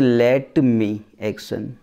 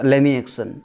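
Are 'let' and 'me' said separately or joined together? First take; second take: separately; joined. First: The words 'let' and 'me' are said separately. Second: The words 'let' and 'me' are joined as 'lemme'. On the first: The speaker calls it wrong. "तोड़ के शब्दों को use करते हैं। जैसे लेट मी action." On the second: The speaker calls it right. "अंग्रेज बोलता है लेमी एक्शन"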